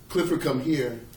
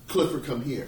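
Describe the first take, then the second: First: The call sounds stern and angry. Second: The call sounds relaxed and casual.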